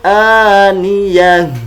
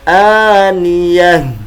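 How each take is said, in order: First: The word ends with a silent-vowel 'h' sound. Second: The word ends with a silent-vowel 'h' sound.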